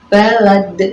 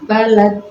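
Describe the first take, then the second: First: The final consonant bounces with a strong echo. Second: The final consonant stops flat with no echo. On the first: The speaker calls it right. "jadi harus balad" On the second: The speaker calls it wrong. "tidak dipantulkan ya, balad ini tidak boleh"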